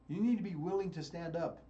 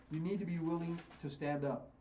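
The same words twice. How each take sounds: The two takes are said the same way.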